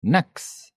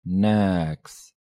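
First: Said in the usual way. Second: "Niks" drawn out slowly; slow demonstration. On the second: Shown as a demonstration. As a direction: hold the vowel of "Niks" long. Teacher repeats word slowly.

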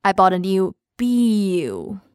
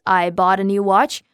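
First: Slow, with "biu" stretched out and falling; "biu" held long in an English sentence; Cantonese word swapped in. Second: Said in the usual way. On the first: Shown as a demonstration. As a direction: drag out "biu" as bee-oo at the end. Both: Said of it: "Like in the sentence".

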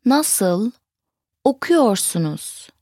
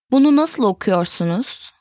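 First: "nasıl", pause, "okuyorsunuz"; word by word. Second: Said in the usual way. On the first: Shown as a demonstration. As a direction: separate "nasıl" and "okuyorsunuz" for learners. Teacher breaks phrase into words.

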